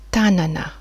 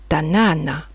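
First: The stress is on the first syllable. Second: The stress is on the second syllable. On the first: It means hand. "Il est important de mettre l'accent au bon endroit" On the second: It means village or town. "le village ou la ville"

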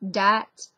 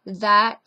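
First: The word starts with a 'd' sound. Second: The word starts with a 'th' sound. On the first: "that becomes dat" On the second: "that becomes dat"

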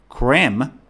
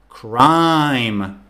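First: The vowel sounds like 'ee' in 'cream'. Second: The vowel sounds like 'eye' in 'crime'. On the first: The speaker calls it wrong. "if you mispronounce the word, this is what will happen" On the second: The speaker calls it right. "Good job"

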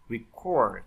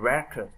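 First: The stress is on the second syllable. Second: The stress is on the first syllable.

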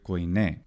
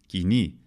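First: It is said with the ancient Greek pronunciation. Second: It is said with the modern Greek pronunciation. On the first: "the ancient Greek word koine" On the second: "in modern Greek, the pronunciation of Koine is Kini"

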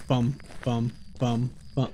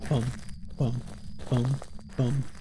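First: The beats come quickly, with short gaps. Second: The beats come slowly, with long gaps. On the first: The footsteps are at their usual speed. "normally it's" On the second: The footsteps are slower than usual. "That was slower than normal speed"

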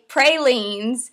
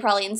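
First: It is said the Chicago way. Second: It is said the New Orleans way. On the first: "in Chicago, we say pralines. I don't say it like that" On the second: "I say pralines. I'm from New Orleans"

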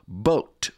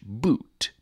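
First: The vowel sounds like 'oh'. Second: The vowel sounds like 'oo'. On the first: This is the Middle English pronunciation. "or boat" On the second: This is the modern English pronunciation. "for the modern English boot"

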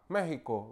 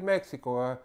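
First: The middle consonant is a throaty h sound. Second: The middle consonant is a ks sound. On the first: "todos los pronuncian con J" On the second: "En vez de decir"

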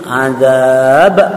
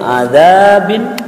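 First: The word ends on a bounced 'b' sound. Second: The word ends with a nasal 'in' ending. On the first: The reader stops at this word. "ketika diwaqaf menjadi azab" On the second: The reader continues without stopping. "Contohnya contoh yang lain azabin"

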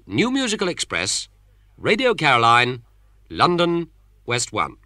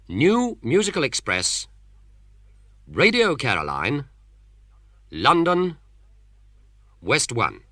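First: The address is read at normal speed. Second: The address is read slowly and deliberately.

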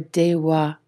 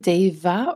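First: The middle consonant sounds like a W. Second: The middle consonant sounds like a V. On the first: "Is it deva or dewa?" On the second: "Is it deva or dewa?"

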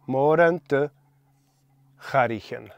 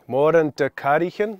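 First: The word for cars starts with a breathy ch sound. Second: The word for cars starts with a hard k sound. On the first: The speaker calls it right. "We're going to add an H" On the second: The speaker calls it wrong. "that'd be nice, but I'm afraid we're not going to do that"

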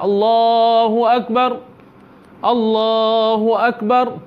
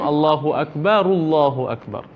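First: The two phrases are separated by a break. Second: The two phrases are joined without a break.

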